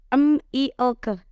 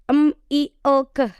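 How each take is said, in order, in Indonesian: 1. Tiap huruf dibaca dengan bunyi pendeknya. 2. Tiap huruf dibaca dengan bunyi pendeknya.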